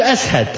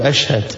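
First: "أسهد" with an s where sh belongs; Bilal's s for sh. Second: "أشهد" said with a clear sh sound; correct sh sound. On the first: Preacher imitating Bilal's call, "أسهد" with an s. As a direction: say "أسهد", swapping sh for s. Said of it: "كان يقول". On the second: Correcting Bilal's Shahada, "أشهد" with a clean sh. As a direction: say "أشهد" with a proper sh. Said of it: "بلال ما كان يقول". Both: Retold or imitated.

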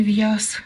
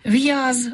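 First: В'яз said as в'яс, ending in с; в'яз pronounced в'яс, the wrong form; devoiced final. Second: В'яз ends in a voiced з; В'яз with a buzzing з at the end; voiced final з. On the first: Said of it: "а не". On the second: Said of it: "а не в'яз". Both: Shown as a demonstration.

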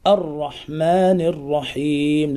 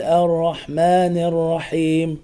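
First: "الرحمن الرحيم" with full, dark r; heavy ra. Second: "الرحمن الرحيم" with light, fronted r and vowel; thin out each ra in "الرحمن الرحيم"; thinned ra. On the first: Teacher models correct reading, heavy ra in "الرحمن الرحيم". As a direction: chant "الرحمن الرحيم" slowly, thickening each ra. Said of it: "الراء مفخمة". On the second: Teacher shows what not to say, thin ra in "الرحمن". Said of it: "أن ترقق الراء". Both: Shown as a demonstration.

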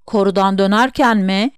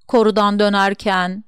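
First: "Korudan dönerken mi?" repeated back as a question, rising on "dönerken"; questioning echo. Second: Said in the usual way. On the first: A narrator's reading. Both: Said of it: "diye yineledim".

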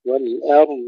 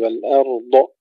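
First: والأرض ending on a held, heavy dad; lengthened dad. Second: والأرض with a bounced, popped-off final dad; wrong final qalqala. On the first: Teacher shows correct والأرض, dad held without qalqala. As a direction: press out the dad of والأرض, no bounce. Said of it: "وتفخيم الضاد مع استطالتها". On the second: Teacher mimics the mistake, bouncing the end of والأرض. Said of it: "هذه القلقلة الأخيرة خطأ". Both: Shown as a demonstration.

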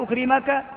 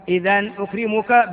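First: أكرمك said ukrimaka, final vowel a; أكرمك ending on -a, subjunctive; أكرمك pronounced ukrimaka with the accusative a; wrong nasb ending. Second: أكرمك said ukrimuku, final vowel u; أكرمك ending on a clear -u, indicative; أكرمك pronounced ukrimuku with the nominative u; with raf' ending. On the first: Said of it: "لا تقول". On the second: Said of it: "بالرفع". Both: Shown as a demonstration.

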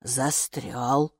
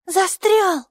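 First: Low, slower, doubting echo; distrustful. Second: Put-on high, loud child's exclamation; stuck, child's cry. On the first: Gatekeeper doubts the root is stuck, low distrustful echo. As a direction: repeat it low with a questioning rise. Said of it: "недоверчиво поговорила привратница". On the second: Майки tugs at the root, high loud exclamation. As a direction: call it out high, with a falling end. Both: A narrator's reading.

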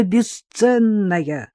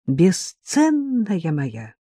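First: Drawn-out endearment. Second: Very slow, teasing drawl; drawn-out endearment. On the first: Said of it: "выкрикнул Жора". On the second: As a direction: stretch it out fondly. Playful drawn-out address. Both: Acted.

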